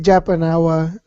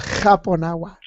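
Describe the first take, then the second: First: The name begins with an English J sound. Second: The name begins with an H sound. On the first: "because of the English pronunciation" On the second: "over here it's called Japonawa"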